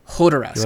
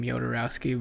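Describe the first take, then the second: First: The name begins with an H sound. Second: The name begins with a Y sound. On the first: "should make like a an H sound" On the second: "we always say his name Jodorowsky"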